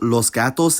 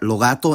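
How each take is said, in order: First: Each final s is a clear hissing s. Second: Each final s is dropped entirely. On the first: "I'll use los gatos" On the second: "all the word final has disappeared"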